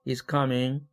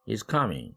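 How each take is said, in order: First: The pitch stays level at the end. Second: The pitch falls on the last syllable. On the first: The speaker has more to say. "말이 아직 안 끝났을 때" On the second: It is a plain statement. "ming이 이제 내려오는 거죠"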